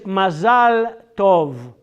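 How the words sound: It is said with a Hebrew pronunciation, 'mazal'. "Hebrew is mazal tov"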